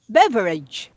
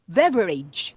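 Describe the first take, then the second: No difference in how they are said.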